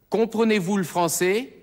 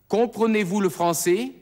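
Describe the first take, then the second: No difference in how they are said.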